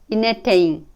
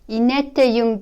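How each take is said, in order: First: The u is dropped and the particle is linked. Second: The final particle keeps its full u vowel.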